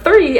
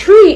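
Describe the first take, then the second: First: "three" opened with a clear th; careful th-r onset on "three"; corrected th pronunciation. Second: "tree" with a hard t instead of th; the th of three turned to t, "tree"; Minglish pronunciation. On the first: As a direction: stress "three" with th, not t. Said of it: "instead of the number three". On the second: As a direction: stress "tree", starting on a t. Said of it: "you're saying tree instead of". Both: Shown as a demonstration.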